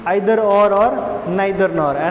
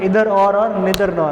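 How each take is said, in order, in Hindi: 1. Either और neither की शुरुआत 'eye' स्वर से होती है। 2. Either और neither की शुरुआत 'ee' स्वर से होती है। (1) "ऐसा आप बोलते हैं" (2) "ऐसा भी बोला जाता है"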